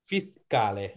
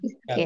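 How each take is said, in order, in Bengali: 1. শব্দটি e স্বরধ্বনিতে শেষ হয়। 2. শব্দটি ব্যঞ্জনধ্বনিতে শেষ হয়। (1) "ফিসকালে। ঠিক আছে।" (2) "ফিসক্যাল না"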